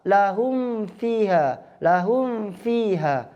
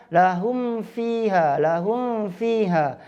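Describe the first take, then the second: The two takes are said the same way.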